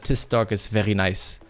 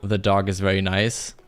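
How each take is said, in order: First: The first word begins with a hard d sound. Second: The first word begins with a soft th sound. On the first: The speaker calls it wrong. "We usually end up just saying" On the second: The speaker calls it right. "we won't say"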